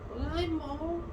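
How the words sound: It is said in a slightly mischievous voice.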